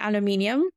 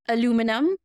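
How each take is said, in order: First: The word is said with a non-American pronunciation. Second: The word is said with an American pronunciation. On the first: This is the speaker's own way of saying it. The speaker calls it right. "I'm going to say aluminium" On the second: This is how people here say it. The speaker calls it wrong. "I'm never going to say aluminum"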